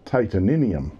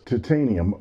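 First: It is said British-style with an extra syllable. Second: It is said with a Canadian pronunciation. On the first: "stick an extra syllable into that word as well" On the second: "the Canadian pronunciation of titanium"

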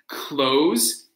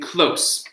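First: The word ends in a 'z' sound. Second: The word ends in an 's' sound. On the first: It is a verb: to shut something. "So close is the verb, to close" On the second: It is an adjective: near. "and close being an adjective"

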